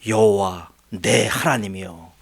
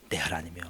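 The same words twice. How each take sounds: First: Slow, drawn-out cry to the Lord; solemn appeal. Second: Much softer, lower 하나님이요 trailing off; hushed appeal. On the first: David slowly calling on his God in protest. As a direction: call on God slowly, heavy with grievance. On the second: David quietly repeating his plea to God. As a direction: drop 내 하나님이요 to a low murmur. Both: Retold or imitated. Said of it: "어떻게 다윗이 따지냐면요".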